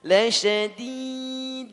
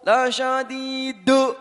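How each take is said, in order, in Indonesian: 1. d terakhir memantul ringan, tanpa vokal. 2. d terakhir memantul keras, menambah vokal. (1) "tipis ya" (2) "yang penting keras pantulkan"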